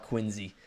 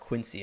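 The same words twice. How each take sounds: First: Quincy is said the Boston way, with z. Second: Quincy is said the local Illinois way, with s.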